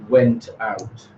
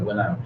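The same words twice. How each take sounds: First: The t at the end of went is pronounced. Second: The t at the end of went is dropped. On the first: The speaker calls it wrong. "we don't say went out" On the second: The speaker calls it right. "you dropped the tip altogether"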